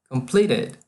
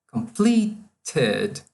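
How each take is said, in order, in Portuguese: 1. É dito com sotaque de inglês americano. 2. É dito com sotaque de inglês britânico.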